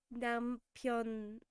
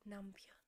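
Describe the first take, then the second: First: 남편 said like a question; questioning tune. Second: Said in the usual way. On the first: Real, not acted. Streamer reading a Korean vocabulary word, questioning tune. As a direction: let 남편 hang as if asking. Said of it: "say that like a question". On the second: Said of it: "Why did I say that like a question?".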